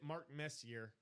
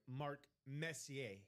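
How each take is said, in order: First: The surname is said with an English pronunciation. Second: The surname is said with a French pronunciation. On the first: The speaker calls it wrong. "or I'm sorry" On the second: The speaker calls it right. "because it's French. I have to pronounce it as it's French"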